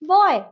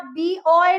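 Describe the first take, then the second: First: It begins with a plain short b sound. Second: It begins with the letter name 'bee'. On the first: The speaker calls it right. "हमने क्या sound किया उसको" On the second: The speaker calls it wrong. "हम बी नहीं बोले या बी ओए नहीं बोले"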